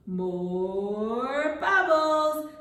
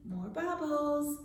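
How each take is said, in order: First: Drawn-out, half-sung prompt; slow, stretched out. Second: Said in the usual way. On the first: Shown as a demonstration. Teacher prompting children to ask for bubbles, slow and stretched. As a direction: stretch it long and lift the pitch. Models request for children to repeat.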